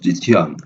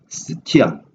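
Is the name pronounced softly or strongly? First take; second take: strongly; softly. First: The name is pronounced with a strong onset. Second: The name is pronounced with a soft onset. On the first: "발음을 좀 강하게 하면 지티안" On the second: "실제 발음은 스키타이가 아니라 스티안"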